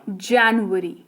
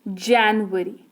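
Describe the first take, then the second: No difference in how they are said.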